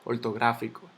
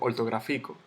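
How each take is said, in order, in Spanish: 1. La sílaba tónica cae en la antepenúltima. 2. La sílaba tónica cae después de la antepenúltima. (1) "yo digo ortográfico" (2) "Yo no digo ortográfico"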